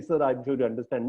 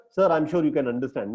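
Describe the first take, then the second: First: Very nicely. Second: Said in the usual way. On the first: Shown as a demonstration. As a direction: ease it out nicely and respectfully. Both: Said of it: "Very nicely".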